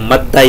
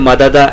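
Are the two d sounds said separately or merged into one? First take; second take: merged; separate. First: The two d sounds merge into one doubled d. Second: The two d sounds are said separately. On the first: "दो के बजाय तजदीद लगाकर एक ही पढ़ा जाता है" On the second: "मददा यमदुदू से"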